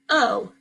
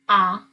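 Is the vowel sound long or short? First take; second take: long; short. First: The vowel is said like its letter name. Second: The vowel is said with its short sound. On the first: "then say the long sound" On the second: "say the short sound"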